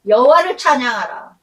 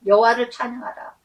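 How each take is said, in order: First: Proclaimed loud. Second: Said in the usual way. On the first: Shown as a demonstration.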